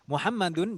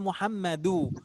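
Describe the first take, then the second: First: The word ends with an n sound. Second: The word ends in a vowel without n.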